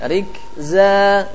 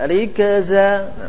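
First: The k and z are joined with no vowel. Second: An extra vowel is inserted between k and z. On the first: The speaker calls it right. "Tapi kalau rikza lebih sulit" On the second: The speaker calls it wrong. "Banyak kan dibaca rikaza"

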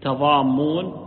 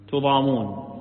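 First: The first vowel is a, the m is doubled. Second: The first vowel is u, the m is single. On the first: You will not crowd together with one another. "بفتح التاء وتشديد الميم" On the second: No injustice or harm will befall you. "بضم التاء وتخفيف الميم"

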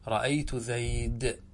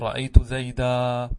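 First: The last word ends in a bare consonant. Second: The last word ends in a long 'a' vowel. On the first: This is the pausal form used by the Rabi'a tribe. "يقفون على المنصوب المنون بالساكن" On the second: This is the pausal form used by most Arabs. "تقلبها إلى ألف"

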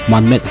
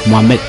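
Both takes have the same delivery.

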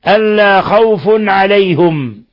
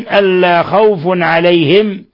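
First: Khawf ends in -un and alayhum has u. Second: Khawf ends in -un and alayhim has i. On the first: "برفع الفاء مع التنوين وضم الهاء في عليهم" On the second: "برفع الفاء مع التنوين وكسر الهاء في عليهم"

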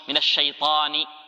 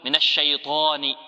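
First: The ta is said without rounding the lips. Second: The ta is said with rounded lips. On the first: The speaker calls it right. "لكن تقول في البداية مثلا" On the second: The speaker calls it wrong. "فتقول من الشيطان طاني، هذا خطأ"

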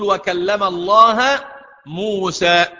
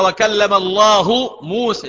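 First: The word Allah ends with an 'a' vowel. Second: The word Allah ends with a 'u' vowel. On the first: Moses is the one who spoke. The speaker calls it wrong. "أنا عايزك تقرأها بنصب لفظ الجلالة" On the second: God is the one who spoke. The speaker calls it right. "لكن القراءة ثابتة"

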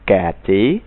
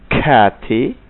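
First: The k is soft, without a puff of air. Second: The k bursts out with a puff of air. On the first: The speaker calls it wrong. "dengan cara yang salah" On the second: The speaker calls it right. "Saya ucapkan dengan perlahan-lahan"

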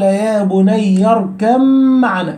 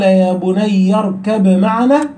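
First: The b is merged into the following m. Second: The b is pronounced clearly before the m. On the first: "فين الباء يا أولاد؟ أدغمت فين؟ في الميم" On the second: "للإدغام والإظهار"

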